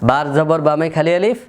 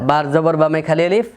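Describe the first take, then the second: The two takes are said the same way.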